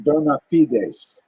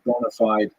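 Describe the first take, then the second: First: The phrase ends with an s sound. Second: The phrase ends with a vowel sound. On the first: "what we would call in Latin the term bona fides" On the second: "that's how Americans say it"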